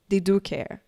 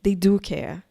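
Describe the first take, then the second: No difference in how they are said.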